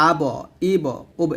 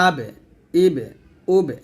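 First: "আব, ইব, উব" with a heavy, rounded bounce after ব; wrongly thick qalqalah. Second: "আবে, ইবে, উবে" with a light "e"-like bounce; thin qalqalah. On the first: Teacher showing learners' common mistake, wrongly thick qalqalah. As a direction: thicken the echo of ব like a কফ. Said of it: "বাটাকে মোটা করে". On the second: Teacher correcting the thick ব, thin qalqalah. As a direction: keep the echo of ব thin, not rounded. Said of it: "বা পাতলা করে উচ্চারণ করতে হবে". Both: Shown as a demonstration.

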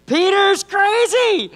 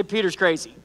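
First: High, slow, loud call; preacher calling back Peter's crazy loudly; called-out echo. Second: Said in the usual way. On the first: Shown as a demonstration. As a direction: belt it to the congregation. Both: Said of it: "somebody say".

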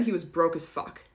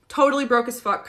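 First: Said in the usual way. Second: "Totally" pushed higher and louder, falling at the end; stress on totally. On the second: Shown as a demonstration. Telling viewers how broke Peter was, stressing totally. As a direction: hit "Totally" hard.

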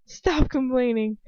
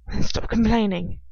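First: Slow, disbelieving echo; incredulous. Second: Loud, exasperated retort. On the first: She repeats his order back to him, incredulous. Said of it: "I say incredulously". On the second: He tells her off after her protest, exasperated. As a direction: push it out, fed up with the complaints. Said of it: "in exasperation". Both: A narrator's reading.

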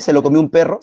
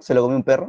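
First: Said in the usual way. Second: Repeated while laughing. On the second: Real, not acted. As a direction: crack up on the repeat.

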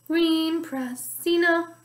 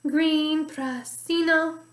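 No difference in how they are said.

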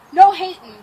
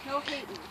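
First: Sudden loud burst; loud warning. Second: Low, very soft aside; quiet warning. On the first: Climber to onlookers before round two, loud warning. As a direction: tell them off loudly. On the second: Climber before round two, repeating it quietly. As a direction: mutter it to yourself. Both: Real, not acted.

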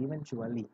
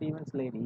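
First: Said in the usual way. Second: "events lady" in place of eventually; mispronounced eventually. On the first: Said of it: "That is not events lady". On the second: Retold or imitated. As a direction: garble eventually into two words, "events lady". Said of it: "She just mispronounced the".

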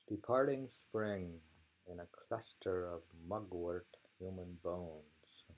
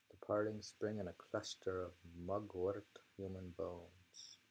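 Both takes have the same delivery.

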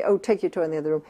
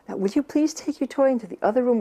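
First: Brisk, quick and confident, no pleading; just state it like it's obvious; matter-of-fact. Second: Higher, unsure, begging tone; pleading. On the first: Mother telling a toddler to move the toy, matter-of-fact. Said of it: "in a very matter-of-fact voice". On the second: Mother pleading with a toddler over the toy, doubtful. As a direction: ask as if you doubt they'll do it. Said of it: "That I'm kind of pleading". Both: Shown as a demonstration.

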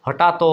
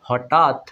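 First: হঠাৎ said as ho-tha-to, with an added open o; sounded final vowel. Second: হঠাৎ ending on a closed t, no vowel after it; silent final vowel. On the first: Teacher showing how it would wrongly sound, final o added. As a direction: open the end of হঠাৎ into a long o. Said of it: "এরকম বলতাম". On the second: Teacher showing the right form, closed final t. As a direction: stop হঠাৎ dead on the t. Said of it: "কিভাবে উচ্চারণ করি". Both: Shown as a demonstration.

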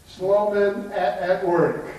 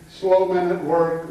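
First: Slow, with "at" said twice, split by a break; doubled AT. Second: Said in the usual way. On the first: Shown as a demonstration. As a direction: read out both copies of "at" separately. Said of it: "When in reality, it says". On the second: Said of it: "Every one of them read the same thing".

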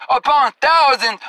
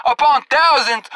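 Both takes have the same delivery.

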